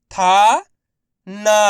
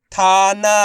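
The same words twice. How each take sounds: First: थाना split as था, long pause, ना; syllable by syllable. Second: थाना joined with no gap, both vowels long; blended word. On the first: Teacher sounding out letters for learners, syllable by syllable. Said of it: "एक अक्षर का उच्चारण करके". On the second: Teacher modelling the whole word for learners, blended. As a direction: blend थाना into one level, held word. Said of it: "उसी तरीके से आपको भी". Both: Shown as a demonstration.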